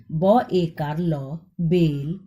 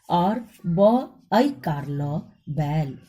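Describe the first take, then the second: First: बेल with a short, tight e; बेल, short e sound. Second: बैल with a long, open ai; बैल, drawn-out ai vowel. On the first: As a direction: say बेल quickly, short vowel. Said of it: "ए के उच्चारण में कम समय लगता है". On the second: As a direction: stretch the ai in बैल. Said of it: "ऐ के उच्चारण में अधिक समय लगता है". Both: Shown as a demonstration.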